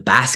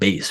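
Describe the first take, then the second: First: It is pronounced the way the fish's name sounds. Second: It is pronounced the way the instrument's name sounds. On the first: The speaker calls it wrong. "I didn't know that bass was pronounced bass. So I was saying" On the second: The speaker calls it right. "that's pronounced bass, right? Like bass is the fish"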